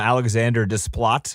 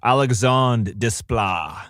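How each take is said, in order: First: The first name ends with an English 'der' sound. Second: The first name ends with a French 'dre' sound. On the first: The speaker calls it wrong. "I call him Alexander Desplat because that's how you would read it" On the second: The speaker calls it right. "it's Alexandre Desplat"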